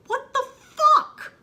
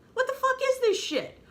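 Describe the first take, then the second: First: Much higher and louder, with a laugh; shrieking disbelief. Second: Much higher, indignant and fed up; exasperated. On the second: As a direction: demand an answer, fed up. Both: Real, not acted. Outraged disbelief at a plot twist.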